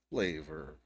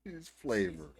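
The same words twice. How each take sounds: First: A low, dry flavor, doubting it; low deadpan repeat. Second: A hint of her voice, teasing; mocking the vlogger. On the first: Retold or imitated. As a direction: say flavor lower and flat, unimpressed. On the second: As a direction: echo her word in a lightly mocking tone. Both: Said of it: "she called it flavor".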